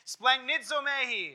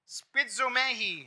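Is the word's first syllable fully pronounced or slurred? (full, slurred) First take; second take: full; slurred. First: The first syllable is fully pronounced. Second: The first syllable is slurred or dropped. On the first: The speaker calls it right. "I always miss that first syllable" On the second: The speaker calls it wrong. "I did it wrong again"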